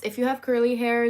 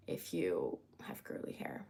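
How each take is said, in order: First: Said in the usual way. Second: A low, breathy whisper with no voice; whispered aside. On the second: Shown as a demonstration. To her stream viewers, repeating the hair tip as a whisper. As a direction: drop it to a secret whisper.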